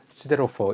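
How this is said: It is said in a British accent. "영국식으로 하면"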